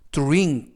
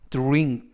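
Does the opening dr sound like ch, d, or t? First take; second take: t; t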